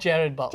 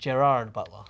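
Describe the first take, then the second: First: The name is said the non-American way. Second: The name is said the American way. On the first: "I just call him" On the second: "I love how Americans say it"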